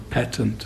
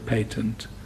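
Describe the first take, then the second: First: Patent is said the American way, like 'pat-ent'. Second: Patent is said the British way, like 'pay-tent'.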